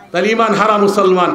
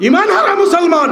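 First: Said in the usual way. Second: Emphatic repeat. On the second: Shown as a demonstration. Phrase repeated, higher and louder.

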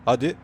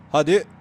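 First: Said in the usual way. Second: "Hadi" pushed higher and louder, rising; excited urging. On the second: Real, not acted. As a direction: cheer the car on harder. Urging car to drift.

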